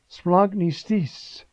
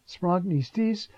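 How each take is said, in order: First: Splanchniztis said slowly, each sound drawn out; Greek word spelled out. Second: Splanchniztis slowly again, rising at the end; Greek word repeated. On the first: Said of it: "one of these beautiful words". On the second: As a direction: savor splanchniztis as a teaching word. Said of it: "which means was moved in his innards". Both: Shown as a demonstration.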